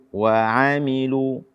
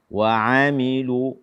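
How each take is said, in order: The two takes are said the same way.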